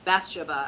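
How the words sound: The name is said the British way.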